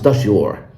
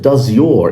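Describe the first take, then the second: First: The z and y blend into one zh sound. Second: A clear z and y sound stay separate. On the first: "it becomes does your. But of course, that's only in connected speech" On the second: "instead of does your"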